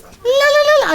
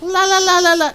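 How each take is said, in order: First: High ululating la la la, louder; Xena war cry try. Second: A smaller, half-hearted la la la ululation; second Xena yell try. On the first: Streamer trying Xena's war cry, high ululating yell. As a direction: attempt Xena's warrior yell and fail. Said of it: "I can't do the yell". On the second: Streamer's second try at the yell, half-hearted ululation. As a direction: give the war cry one more weaker go. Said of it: "Nope, nope, doesn't work". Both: Shown as a demonstration.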